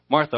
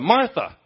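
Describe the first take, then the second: First: It is said at normal loudness. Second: It is said loudly.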